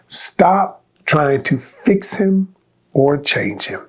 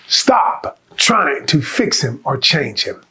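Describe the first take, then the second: First: It is said in a plain, normal voice. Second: It is said forcefully, from the chest.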